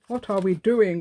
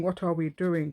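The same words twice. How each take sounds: First: Much louder, exasperated outburst; exasperated louder cry. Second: Said in the usual way. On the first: Real, not acted. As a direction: throw the question out, fed up and loud.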